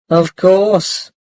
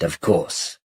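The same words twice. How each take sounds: First: Light smiling reassurance; with a small smile. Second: Said in the usual way. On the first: Acted. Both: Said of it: "said Mum with a small smile".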